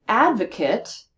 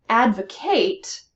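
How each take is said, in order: First: "Advocate" stressed on AD, ending in a short unstressed "-kit"; noun pronunciation. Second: "Advocate" slowly, stressed on AD and a full "-KATE"; verb with two stresses. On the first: Teacher showing students the noun, "Advocate" with weak last syllable "-kit". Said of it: "is also a noun". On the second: Teacher showing students the verb, "Advocate" stressed at start and end. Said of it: "the word has two places of stress in the verb". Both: Shown as a demonstration.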